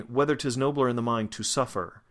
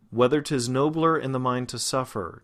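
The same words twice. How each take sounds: First: "to" said as a full "too" before suffer; over-precise "to", pulling focus from "suffer"; false stress on to. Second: "Whether", "nobler", "suffer" end in weak er; weight on first syllables, "to" reduced; unstressed schwars. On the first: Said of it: "my attention is drawn to the to". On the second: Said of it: "these are all unstressed". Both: Shown as a demonstration.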